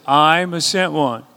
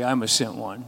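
First: Slower and louder, with conviction; said like you mean it. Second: Said in the usual way. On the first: Shown as a demonstration. Congregation repeating it back louder and slower, with conviction. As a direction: declare it slowly, meaning every word. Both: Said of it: "say it like you mean it".

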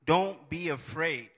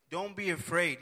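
First: Slow reading. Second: Said in the usual way. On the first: Shown as a demonstration.

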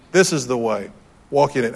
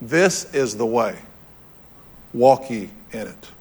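First: Said in the usual way. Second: Slow, deliberate reading of scripture; unhurried scriptural quote of God's words; slow solemn quote. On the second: Shown as a demonstration. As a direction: let each word land slowly, with weight. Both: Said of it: "Here's what he said".

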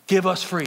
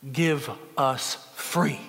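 First: Stronger plea. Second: Slow plea. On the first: Cinque's repeated plea grows stronger. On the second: Cinque in chains pleads in court. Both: Retold or imitated.

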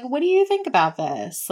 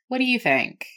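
First: "What do you think about this?" lilting and rising toward "this"; sing-song upward tune. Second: "What do you think?" with the pitch sinking down on "think"; falling tune. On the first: Friend who likes the outfit, asking in a rising sing-song. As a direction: lift the question upward, hopeful and sing-song. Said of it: "sing-song, that upward inflection". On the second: Friend trying on clothes, asking with a falling tune. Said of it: "and it kinda goes down". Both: Shown as a demonstration.

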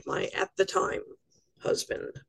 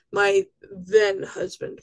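First: "my at the time husband" dropped to a whisper; whispered aside. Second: "My" leaned on, drawn out and slow; slow down and weight the word "My"; stress on my. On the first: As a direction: mutter it half to yourself, sardonic. Wry aside about ex-husband. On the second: Correcting herself about ex-husband. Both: Real, not acted.

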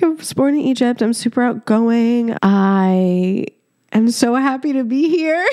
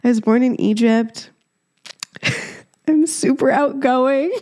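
First: Mock-cheery quote dissolving into laughter; laughing. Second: Quoting herself through real laughter; giggling at her own cringy introduction; laughing. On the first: Mimicking her cringy self-introduction, breaking into laughter. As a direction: laugh your way through the awkward intro. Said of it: "I can't stop laughing on this episode". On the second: Retold or imitated. Retelling her awkward intro to listeners, laughing. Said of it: "I can't stop laughing at how cringy it was".

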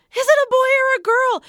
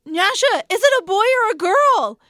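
First: Even higher, louder repeated demand; escalating shout. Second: Much higher, louder demanding call; urgent calling out. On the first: Mother shouting the question again at her stunned husband, louder still. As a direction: insist at full pitch, losing patience. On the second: Mother in labor bed calling to her husband, high loud demand. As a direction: call across the room to get an answer. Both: Retold or imitated.

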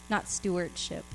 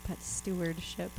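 First: Said in the usual way. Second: Stewardship slow and soft, each syllable set down; stewardship said the right way. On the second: Shown as a demonstration. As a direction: lay the word stewardship down gently and slowly.

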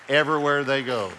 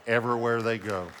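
First: Preacher's emphatic echo; stress on Everywhere. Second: Said in the usual way. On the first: Shown as a demonstration. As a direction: punch the repeat of Everywhere they go.

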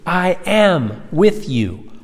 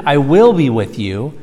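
First: "am" held long and high; slow, insistent weight on "am"; stress on AM. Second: "will" stressed as the rejected future. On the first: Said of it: "continuous present tense verb". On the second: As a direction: set up "will" to be corrected. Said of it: "Not even". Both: Shown as a demonstration.

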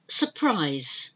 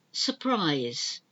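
The two takes are said the same way.

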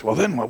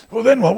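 First: Said in the usual way. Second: High, loud, pressing question; hammered demand, louder and higher. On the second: Acted. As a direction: push him harder and louder. Preacher presses the question harder.

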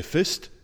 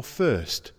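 First: Fist, said short, no r sound; Yorkshire dialect, fist with no r; Dales dialect fist. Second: First, said with full er vowel and the r; first as in standard speech. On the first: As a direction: say fist the broad Dales way, clipped. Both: Shown as a demonstration. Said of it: "Do you say fist or first?".

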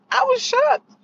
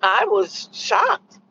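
First: Much higher, rising shocked cry; shocked squeal. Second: Slow deadpan. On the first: Repeating her point, a high squealed I was shocked. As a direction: squeal it in disbelief. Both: Shown as a demonstration. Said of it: "needless to say".

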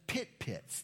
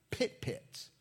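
First: Said in the usual way. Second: Pit pits said high and drawn out, each pit stressed; preacher lifts his voice to show the doubled Hebrew, pit pits, sung high; Hebrew-style doubling. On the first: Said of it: "that emphasis". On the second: Shown as a demonstration. Pit pits read aloud high for emphasis. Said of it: "all it says is".

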